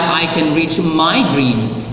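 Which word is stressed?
my. The stress falls on the word my. The dream belongs to no one else. "It's not anybody, anybody else's dream, it's your dream"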